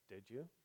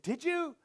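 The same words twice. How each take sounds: First: It sounds doubtful and unconvinced. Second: It sounds thrilled and delighted.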